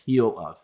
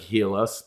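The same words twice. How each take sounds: First: The name is said differently from its spelling. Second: The name is read the way it is spelled. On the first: This is how the company says the name. The speaker calls it right. "but it's Heal Us. That's how they say um, to uh, to pronounce it" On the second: This is how the name looks in writing. The speaker calls it wrong. "it looks like Heal Us"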